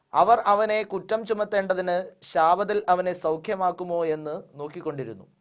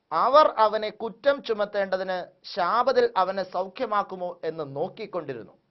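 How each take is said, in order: Both takes have the same delivery.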